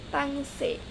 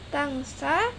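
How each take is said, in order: First: The final vowel is shifted toward 'eh'. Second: The final vowel is an open 'ah' sound.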